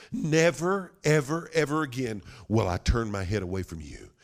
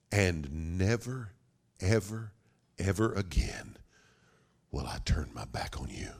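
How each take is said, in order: First: NEVER struck high, then settling; emphatic vow. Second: Solemn promise. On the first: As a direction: launch high on "never" and press on. Father's promise repeated with force. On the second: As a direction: pause after each "ever", drop to a hush. Father's solemn promise, first take. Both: Acted.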